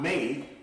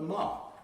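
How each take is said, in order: First: The vowel sounds like 'ay'. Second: The vowel sounds like 'ah'. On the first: The speaker calls it wrong. "not may" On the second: The speaker calls it right. "but ma"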